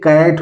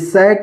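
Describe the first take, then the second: First: The word begins with a k sound. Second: The word begins with an s sound. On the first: The speaker calls it right. "ये कैट होगा" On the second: The speaker calls it wrong. "ये सैट नहीं होगा"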